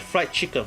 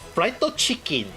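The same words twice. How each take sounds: First: It is said with an English accent. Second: It is said with a Japanese accent. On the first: "We always say like fried chicken" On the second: "some of the Japanese people saying like fried chicken"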